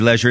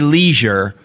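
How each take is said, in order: First: It has a British pronunciation. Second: It has an American pronunciation.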